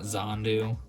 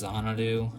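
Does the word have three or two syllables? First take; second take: two; three. First: The word is said with two syllables. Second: The word is said with three syllables. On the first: The speaker calls it wrong. "not Zandu. ... my brain just totally dismissed the other A in it" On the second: The speaker calls it right. "It's Xanadu"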